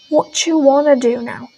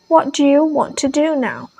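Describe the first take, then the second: First: The words are reduced and run together. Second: Each word is said fully and separately.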